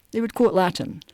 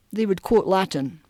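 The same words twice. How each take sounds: The two takes are said the same way.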